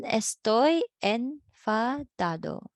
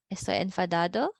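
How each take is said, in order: First: Slow, falling "estoy enfadado" as a model; slow model reading. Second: Fast "enfadado" rising at the end like a question; quick questioning rise. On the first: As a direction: spell it out slowly so the class can repeat. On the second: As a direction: toss it back as a quick check. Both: Shown as a demonstration.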